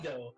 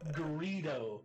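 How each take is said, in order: First: The name is said without an R sound. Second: The name is said with an R sound. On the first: The speaker calls it wrong. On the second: The speaker calls it right. "with the R"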